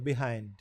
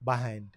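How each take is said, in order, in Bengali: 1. প্রথম স্বরধ্বনিটি নরম e-এর মতো। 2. প্রথম স্বরধ্বনিটি খোলা a-এর মতো। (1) "ওরা বলছে বিহাইন্ড অনেকটা একারের মতো বিহাইন্ড এইরকম" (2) "আমেরিকানরা ... বাহাইন্ড বলছে ব আকার হ আকার"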